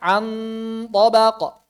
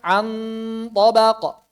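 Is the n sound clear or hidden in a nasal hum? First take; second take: clear; clear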